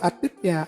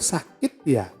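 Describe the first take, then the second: First: The word is said childishly, dropping sounds. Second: The word is said fully, with every sound. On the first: It copies the way a small child talks. The speaker calls it wrong. "Jangan begitu" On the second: It models the correct adult word. The speaker calls it right. "Sakit ya sakit, jangan bilang atit"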